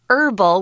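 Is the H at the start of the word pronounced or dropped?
dropped. It starts without an H sound, American style.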